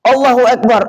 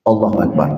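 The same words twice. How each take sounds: First: Shouting the takbir. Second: Said in the usual way. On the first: Retold or imitated. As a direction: cry it out over the valley. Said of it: "berteriak kami". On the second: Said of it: "Takbir itu".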